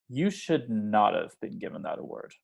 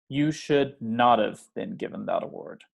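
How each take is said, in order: Both takes have the same delivery.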